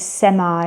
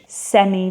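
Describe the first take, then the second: First: It is said with an American English pronunciation. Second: It is said with a British English pronunciation.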